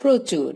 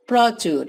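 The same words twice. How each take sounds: First: প্রচুর said as prochur, closed o; spoken pronunciation. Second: প্রচুর read as spelled, open prɔ; written spelling. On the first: Teacher showing how প্রচুর is really said, closed o. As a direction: round the vowel in প্রচুর to a clear o. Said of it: "আমরা বলি". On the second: Teacher reading প্রচুর as written, open vowel. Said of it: "আর লেখা ওটা থাকে". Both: Shown as a demonstration.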